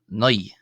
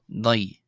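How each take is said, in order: The two takes are said the same way.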